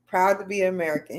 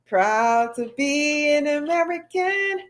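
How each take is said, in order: First: Said in the usual way. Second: Sung slowly and much higher, like a patriotic anthem; sung line. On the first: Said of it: "She's like". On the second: Retold or imitated. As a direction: croon the anthem line, slow and lifted. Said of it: "What is that song he plays a lot?".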